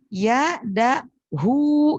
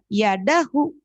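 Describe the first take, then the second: First: The final vowel is said long. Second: The final vowel is said short. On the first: The speaker calls it right. "semestinya tulisannya gini. Yadahu, gitu" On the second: The speaker calls it wrong. "jangan dibaca yadahu, tapi panjangkan"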